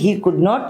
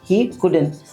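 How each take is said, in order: First: The negative is said as two separate words. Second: The negative is contracted into one short word. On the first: "या फिर he कुड नॉट" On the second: "कुडन भी बोल सकते हैं ना"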